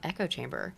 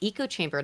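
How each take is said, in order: First: The first word sounds like the ordinary word 'echo'. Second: The first word sounds like 'eco', as in economy. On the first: The speaker calls it right. "not echo chamber" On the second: The speaker calls it wrong. "Why do I say echo chamber"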